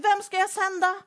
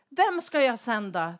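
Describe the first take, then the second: First: High, loud calling question; God calling out. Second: Said in the usual way. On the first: Acted. God calling for someone to send, loud and high. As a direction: call it out to the crowd. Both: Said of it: "Då frågar Gud".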